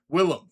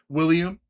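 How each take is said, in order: First: The name is said like Willem, with two syllables. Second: The name is said like William, with three syllables. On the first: The speaker calls it right. "That's what I said" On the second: The speaker calls it wrong. "how do people mispronounce his name?"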